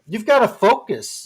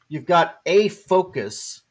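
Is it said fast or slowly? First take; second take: fast; slowly. First: It is said at a quicker pace. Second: It is said at a slower pace.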